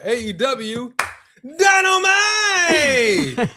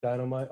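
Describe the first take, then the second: First: Dynamite! stretched out, high and shouted; announcer yell. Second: Said in the usual way. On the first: Shown as a demonstration. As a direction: roar out Dynamite! long and slow like a ring announcer. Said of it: "Wait, I gotta say it right". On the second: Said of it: "You didn't say Dynamite right either".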